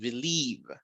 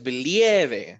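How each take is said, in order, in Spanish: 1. La vocal tónica es una ee larga. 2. La vocal tónica no es una ee larga. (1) "tenemos una I extendida" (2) "No es believe"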